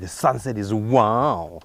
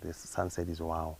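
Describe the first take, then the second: First: It sounds strong and impressed at the end. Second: It sounds flat and unimpressed.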